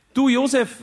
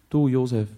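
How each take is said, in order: First: "Du, Josef" much higher and louder, falling on "Du". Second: Said in the usual way. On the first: Acted. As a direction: call "Du, Josef" in the high caretaker voice. Platzwart spricht Josef an. („Du, Josef“ hoch und laut, fallend auf „Du“)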